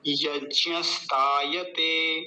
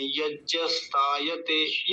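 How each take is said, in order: First: यज्ञस्तायते slowly as yagyas-taa-ya-te; proper ज्ञ. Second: यज्ञस्तायते as yajjas-taayate, no glide in ज्ञ; wrong ज्ञ. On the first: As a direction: stretch यज्ञस्तायते with a clear glide in ज्ञ. (यज्ञस्तायते सही, धीरे-धीरे) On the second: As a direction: show the mistake in यज्ञस्तायते with a plain j. (यज्ञस्तायते, गलत 'यज्जस' उच्चारण) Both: Shown as a demonstration. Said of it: "ये गलत उच्चारण है".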